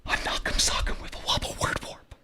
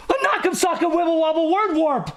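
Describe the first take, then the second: First: Whispered in awe, very soft; hushed whisper. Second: High-pitched exclamation, fully voiced; alarmed cry. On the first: Shocked listeners echoing the nurse, hushed whisper. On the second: Shocked listeners echoing the nurse, high alarmed cry. Same echo, cried out high. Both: A narrator's reading.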